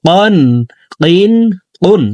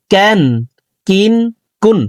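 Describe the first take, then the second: First: কন, কিন, কুন with q from the very root of the tongue; drawn-out back q in কন, কিন, কুন; deep Qaf. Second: ক্যান, কিন, কুন with a light k slightly ahead of the tongue root; plain front k in ক্যান, কিন, কুন; forward Kaf. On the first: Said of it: "কফ হরফের উচ্চারণ জিহ্বার গোড়া". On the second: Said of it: "জিহ্বার গোড়া থেকে একটু আগে বাড়াইয়া". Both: Shown as a demonstration.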